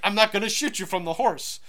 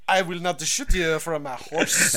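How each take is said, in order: First: It is said in a plain voice. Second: It is said in a French accent.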